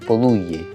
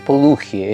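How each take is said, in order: First: The middle consonant is a y sound. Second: The middle consonant is a throaty h sound. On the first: The speaker calls it right. "es Poduye" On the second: The speaker calls it wrong. "su apellido no es Poduje"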